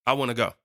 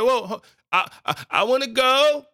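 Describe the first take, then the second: First: Said in the usual way. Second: Put-on higher-pitched child begging to come along; pleading child. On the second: Child watching parents leave the house, pleading to go. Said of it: "You ever saw your parents when you were younger and they leaving".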